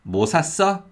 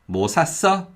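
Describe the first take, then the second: First: The stress falls on the verb. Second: The stress falls on the verb.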